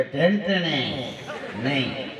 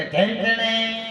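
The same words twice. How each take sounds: First: ઢેંટણે stretched very slowly, low and garbled; very slow stammered ઢેંટણે; stammering mispronunciation. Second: ઢેંટણે dragged very slowly, higher; slow stammered ઢેંટણે insisting; stammering mispronunciation. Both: Retold or imitated. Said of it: "તોતડીયો હતો".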